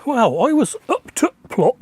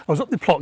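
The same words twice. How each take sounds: First: Put-on Yorkshire accent, higher than usual; broad Yorkshire accent, played up; best Yorkshire accent. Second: Said in the usual way. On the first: Shown as a demonstration. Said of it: "in my best Yorkshire accent".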